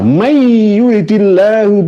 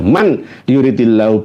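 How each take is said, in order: First: The n blends into the following y sound. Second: The n is pronounced clearly before the y. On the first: "nggak nggak saya itu digunakan seperti itu yang enggak" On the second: "sama seperti itu"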